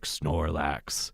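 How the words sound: The voice resonates deep in the chest.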